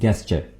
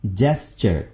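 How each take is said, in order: First: The word begins with a hard g sound. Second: The word begins with a j sound. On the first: The speaker calls it wrong. "आमतौर पर दोस्त इसको गलत pronounce करते हैं, बोलते हैं गेस्चर, यानी ये साउंड देते हैं गेस्चर, जो कि बिल्कुल गलत है" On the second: The speaker calls it right. "सही कैसे बोलेंगे? जेस्चर। जीम है यहां पर"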